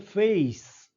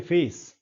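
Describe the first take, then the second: First: फेस with e gliding into i; British pronunciation of face. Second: फेस with a plain, pure e; Indian pronunciation of face. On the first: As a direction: stretch फेस into "fey-ees". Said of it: "वो बोलते हैं फेस". (फेस को फेइस जैसा, ए से ई तक) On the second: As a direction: keep one unmoving vowel in फेस. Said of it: "हम बोलते हैं फेस". (फेस में सीधा ए, बिना ई के) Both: Shown as a demonstration.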